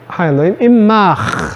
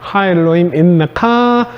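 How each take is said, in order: First: The last word ends in a closing consonant. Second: The last word ends in an open vowel. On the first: The sentence ends here before a pause. "하엘로임 인마흐 하고 휴, 쉬었다가" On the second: The reading runs straight on into the next words. "인메카로 되면 그 다음에 바로 또 얘기하고 싶어지는데"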